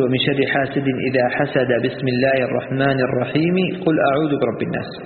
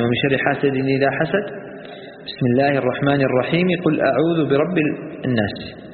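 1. وصل الجميع بدون وقف. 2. وقف بعد الآية فقط، والبسملة توصل بما بعدها. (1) "وصل آخر السورة بالبسملة مع وصل البسملة بأول الثانية" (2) "الوقف على آخر السورة ووصل البسملة بأول الثانية"

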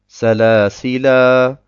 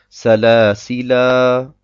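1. Das Wort endet auf einen langen Endvokal. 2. Das Wort endet auf einen langen Endvokal.

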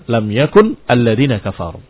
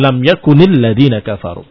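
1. Yakun berakhir pada bunyi n tanpa vokal. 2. Yakun tersambung ke kata berikutnya dengan bunyi i. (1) "satu yakun" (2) "satu yakuni"

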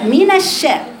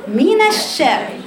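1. صوت النون رقيق وخفيف. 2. صوت النون رقيق وخفيف.

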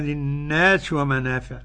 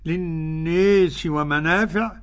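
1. الألف الطويلة في 'nas' تبقى مفتوحة فتحًا خالصًا. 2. الألف الطويلة في 'nas' تميل نحو الكسرة. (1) "أما السوسي فيقرأ بالفتح وكذا الباقون" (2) "قرأ بالإمالة للناس"

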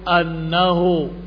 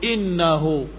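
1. Vokal pertama adalah bunyi 'a' terbuka. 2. Vokal pertama adalah bunyi 'i' depan. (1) "difathahkan hamzahnya" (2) "dengan dikasrahkan hamzahnya"

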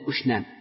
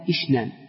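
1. الحركة الأولى هي صوت 'u' مدوّر. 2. الحركة الأولى هي صوت 'i' أمامي. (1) "الأفصح والأكثر أنه بضم الألف" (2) "ويصح لغة إشنان بكسر الهمس"

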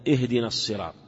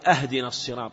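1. تبدأ الكلمة الأولى بهمزة وصل 'i'. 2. تبدأ الكلمة الأولى بهمزة قطع 'a'. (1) "وهي اهدنا الصراط" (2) "يقطعها بهمزة القطع"

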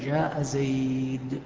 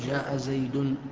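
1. تنتهي الكلمة الأخيرة بصوت d خالص. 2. تنتهي الكلمة الأخيرة بصوت n زائد. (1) "نقف على الدال، ما نأتي بالتنوين" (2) "ما نقول"

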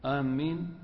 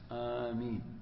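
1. صوت الميم مشدد ويُمدّ أطول. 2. الحرف الأول طويل، والميم مفردة. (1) "إذا شدد الميم" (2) "بفتح الهمزة مع المد في الأشهر"

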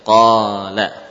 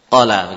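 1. Vokal setelah q dibaca panjang. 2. Vokal setelah q dibaca pendek. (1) "Baru terwujud apabila kita memberikan italah tadi" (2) "kalau kita tidak mewujudkan italah, ya, pada huruf qaf, ya, kita baca qala begitu"

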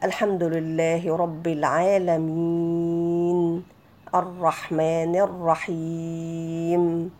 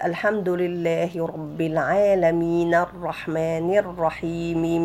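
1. يُوقَف عند كل آية ويُمَدّ الحرف الأخير. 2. يُوصَل بسلاسة، بمدّ حركتين. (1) "لما نقف على الكلمة نمدها سواء حركتين أو أربعة أو ستة" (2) "إذا وصلنا الكلام ... كده كانت حركتين"

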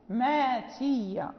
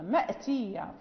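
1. تحل ألف المدّ محل الهمزة. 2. تُسمع همزة قبل التاء. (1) "يقرأ ماتية" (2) "مأتية في سورة مريم"

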